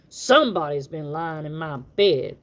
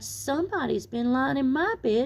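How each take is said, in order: First: The voice is deep, rough and gruff. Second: The voice is small, sharp and shrill. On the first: A big creature is speaking. "in his great rough, gruff voice" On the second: A small creature is speaking. "so sharp and so shrill"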